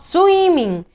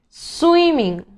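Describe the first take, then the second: First: The word's opening s sound is altered. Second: The word begins cleanly with the s sound. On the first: The speaker calls it wrong. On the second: The speaker calls it right.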